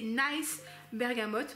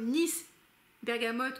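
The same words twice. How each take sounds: First: Nice is said 'nais', rhyming with price. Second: Nice is said 'neess', rhyming with peace. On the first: It calls the bergamot a lovely one. "parce que c'est une belle bergamote" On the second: It names bergamot from the city of Nice. "comme la bergamote de Nice"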